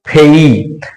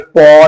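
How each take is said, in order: First: The vowel glides from 'e' to 'ee'. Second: The vowel is a rounded 'aw'. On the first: The speaker calls it right. "तो इस P A Y को हम क्या पढ़ेंगे? फेई।" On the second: The speaker calls it wrong. "पौ नहीं पढ़ेंगे"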